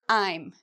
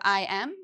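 First: It is said as one contracted word, I'm. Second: It is said as two full words, I am. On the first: "compared to I'm" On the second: "So we have I am"

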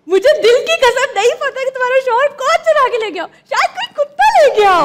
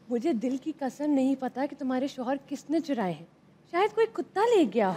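First: It is said joyfully, like sharing good news. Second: It is said in a very romantic tone.

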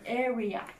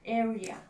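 First: The r sounds like a clear English r. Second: The r sounds like a clear English r.

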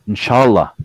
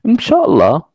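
First: It is said in a firm, affirmative way. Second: It is said in an evasive, noncommittal way. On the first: The answer is yes, confirmed. "yes, I confirm" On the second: The answer is actually no. "When you say inshallah means no"

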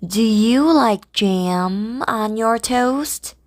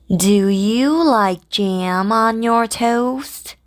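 Both takes have the same delivery.

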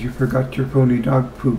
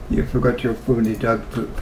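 First: It is said in the speaker's plain accent. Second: It is said in a French accent.

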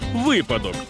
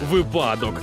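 First: The stress is on the first syllable. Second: The stress is not on the first syllable. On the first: The speaker calls it right. "У слові «випадок» наголошуємо на перший склад" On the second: The speaker calls it wrong. "багато хто каже «випадок»"

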